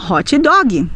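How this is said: It is said with a Brazilian Portuguese pronunciation.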